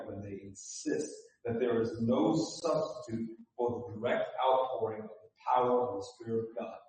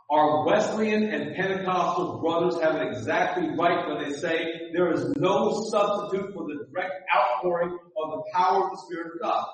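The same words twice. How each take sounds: First: Quick and quiet. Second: Fuller and louder. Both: Shown as a demonstration. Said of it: "Let me say that again".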